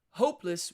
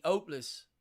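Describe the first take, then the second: First: Said in the usual way. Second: HOPELESS with a silent H, starting on the O; Cockney dropped H. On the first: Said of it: "hopeless would be in Cockney". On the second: Shown as a demonstration. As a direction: drop the H in HOPELESS, Cockney-style. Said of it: "would be in Cockney".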